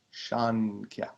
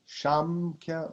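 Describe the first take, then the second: First: Shankya drawn out slowly on the n; N variant. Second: Shamkhya drawn out slowly on the m; M variant. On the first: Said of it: "Shankya with an N". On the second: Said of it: "Shankya with an N. So either". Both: Shown as a demonstration.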